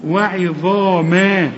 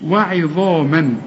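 First: وعظاما with a full, heavy emphatic za and long alif; slow recited emphasis. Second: وعظاما ended cleanly with no ghunna before the hamza; slow tajweed demo; no nasal tanween. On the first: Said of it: "الألف الصغيرة دي عشان تقول". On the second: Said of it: "عند الوصل مفيش تنوين". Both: Shown as a demonstration.

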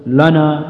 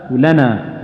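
First: لنا with a thick, dark "la"; heavy lam. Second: ولنا with a thin, fronted "la"; light lam. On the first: Quran teacher showing what not to say for لنا, heavy lam. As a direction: thicken the l and first vowel of لنا. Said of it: "لا تقول". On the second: Quran teacher modelling ولنا for learners, light lam. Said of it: "تبين الترقيق الذي فيها". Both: Shown as a demonstration.

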